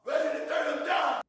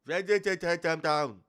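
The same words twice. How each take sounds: First: High cartoon character voice; squeaky toon delivery; vintage cartoon voice. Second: High cartoonish mimic, louder; vintage cartoon voice. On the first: Real, not acted. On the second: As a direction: parrot the cartoon voice. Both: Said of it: "Why is he talking like a cartoon character?".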